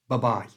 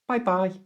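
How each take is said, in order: First: The first vowel is a quick weak 'uh'. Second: The first vowel is a full 'eye' sound. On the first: It suits adults or anyone. "squash it all together and it becomes like a machine gun" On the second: It is a form used with children. "this is for use with children"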